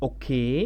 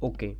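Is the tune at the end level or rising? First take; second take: rising; level. First: The voice rises at the end. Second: The voice stays level at the end. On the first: Asking whether something is right. "লাস্টে আমি দেখেন একটু stress দিচ্ছি, একটু লম্বাটা টোনটাকে বাড়াচ্ছি" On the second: Everything is fine. "Normally"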